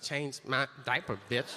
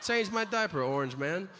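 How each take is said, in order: First: Lightly imitated rapper; a hint of rap-video swagger. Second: Lightly acted president's insult, starting high; a hint of a head of state taunting another; foreign president. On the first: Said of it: "Rappers should wear them in videos and be like". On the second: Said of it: "The president of another country should tell ours".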